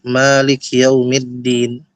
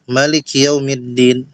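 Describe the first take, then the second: First: The first vowel of Malik is long. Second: The first vowel of Malik is short. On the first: This is the reading of the Hafs from Asim tradition. "kita bacanya dengan panjang dua harakat" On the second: This is the reading of another recitation tradition. "dibacanya pendek mimnya"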